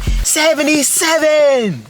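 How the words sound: It is said with excited, celebratory energy. It is a great achievement worth cheering. "you drop seventy-seven, they be like"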